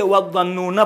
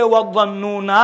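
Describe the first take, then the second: First: وَالظَّنُّونَ with a short final vowel, no alif, run into the next word; joined form. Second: وَالظَّنُّونَ ending on a long final aa, as when stopping; with pause form. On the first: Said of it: "اما بدون توقف اتصال کے صورت میں". (وَالظَّنُّونَ کو ملا کر بغیر الف کے پڑھنا) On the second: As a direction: say وَالظَّنُّونَ with the final alif sounded for a stop. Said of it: "جب آپ توقف کریں گے". (وَالظَّنُّونَ کو وقف کی صورت میں آخر میں الف کے ساتھ پڑھنا) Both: Shown as a demonstration.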